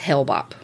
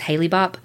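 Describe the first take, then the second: First: The first part of the name has one syllable. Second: The first part of the name has two syllables. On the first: The speaker calls it right. "It's not, it's Hale-Bopp" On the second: The speaker calls it wrong. "I always thought it was Haley-Bopp"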